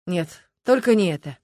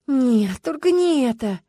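First: Subdued, matter-of-fact dismissal; wincing refusal. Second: High-pitched groan of dismay; moaning plea. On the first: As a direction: say no with mild distaste. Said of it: "который, поморщившись". (поморщившись, сдержанно) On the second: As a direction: wail it in pleading protest. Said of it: "Люба тут же простонала". (простонать умоляюще) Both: A narrator's reading.

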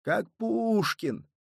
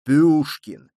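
First: Slow, drawn-out, higher; drawled. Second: Loud, booming bass word; slipping into bass. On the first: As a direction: stretch the words out slowly. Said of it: "протянул раненый". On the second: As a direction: drop fully into the bass. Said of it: "окончательно сбился на басы курсант". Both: A narrator's reading.

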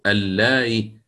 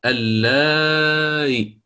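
First: اللائي with the madd kept short; قصر المد. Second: اللائي drawn out very slowly, the long vowel held; مد مطوّل; lengthened madd. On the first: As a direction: say اللائي with a brief, short vowel before the eased hamza. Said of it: "يجوز قصره". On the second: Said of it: "والمد ما زال أعدل". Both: Shown as a demonstration.

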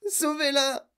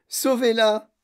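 First: High, weaker plea; tearful wail. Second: Loud, high cry for help; desperate plea. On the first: Mother wringing hands over daughter, tearful wail. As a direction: wail it high without pushing the volume. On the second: Mother pleading for her daughter, desperate cry. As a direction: beg loudly, voice pushed up. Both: A narrator's reading. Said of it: "pleura madame Beauregard".

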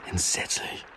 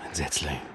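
First: A weary whispered echo of the same word. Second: Dropped low and soft, muttered to himself at the glass; a low, soft groan of a word; low murmur. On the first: Commissioner repeating it to himself, whispered. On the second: Commissioner muttering to himself at the window, low and soft. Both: Acted.

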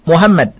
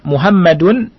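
First: "Muhammad" stopped on the final d; tanwin unread. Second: "Muhammadun" with the -un ending voiced; tanwin pronounced. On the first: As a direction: say "Muhammad" with no -un ending. Tidak dibaca tanwinnya, Muhammad. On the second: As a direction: sound out the final -dun in "Muhammadun". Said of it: "tidak dibaca tanwinnya". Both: Shown as a demonstration.

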